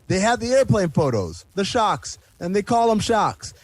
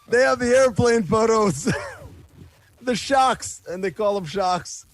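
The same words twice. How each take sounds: First: It is read in the reader's ordinary voice. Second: It is read in a put-on imitation voice.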